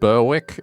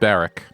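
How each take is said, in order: First: The 'w' is sounded: Ber-wick. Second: The 'w' is silent: Berrick. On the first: This is how the spelling reads. "Even though it's spelled Berwick" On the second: This is how the name is actually said. "it's pronounced Berwick, like with two R's"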